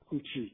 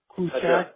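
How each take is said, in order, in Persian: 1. آخرین مصوت بسته است، مثل 'i'. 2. آخرین مصوت باز است، مثل 'a'. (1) "اها میل به بسته تر شدن پیدا میکنن، تبدیل به ای میشن" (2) "سه درجه"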